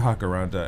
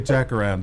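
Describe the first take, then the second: First: The word begins with an H sound. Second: The word begins with a J sound. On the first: This is the listener's pronunciation. "you say Hakaranda" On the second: This is the speaker's own pronunciation. "I say Jacaranda"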